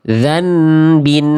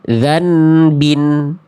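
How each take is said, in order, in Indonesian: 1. Bunyi n yang jelas terdengar sebelum b. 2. Bunyi n yang jelas terdengar sebelum b.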